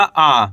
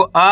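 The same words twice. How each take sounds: First: आ drawn out, falling; long, lower, held आ; long vowel. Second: आ said short; don't draw out the आ; quick, brief आ; short vowel. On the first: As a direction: stretch the आ. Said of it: "खींच के पढ़ेंगे". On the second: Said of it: "कम खींच के पढ़ेंगे". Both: Shown as a demonstration.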